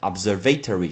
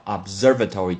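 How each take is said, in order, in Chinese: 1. 重音落在 'ser' 以外的音节上。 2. 重音落在第二个音节 'ser' 上。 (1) "这个字很多人会念成observatory，是错的" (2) "叫observatory，重音在s-e-r"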